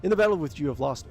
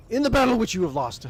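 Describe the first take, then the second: First: Said in the usual way. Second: Much higher, louder theatrical voice; the first overblown try at the line; put-on warrior voice. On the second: Game master starting Thorvald's line, hammed-up voice. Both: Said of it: "I'm just gonna talk".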